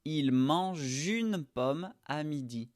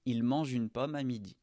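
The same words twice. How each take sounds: First: Il mange une pomme à midi, slow, je sound run into une; teacher linking the je sound into une for a learner; linked je-une. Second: Said in the usual way. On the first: Shown as a demonstration. Slowed model with mange joined to une. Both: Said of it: "tu vas connecter le son je à une".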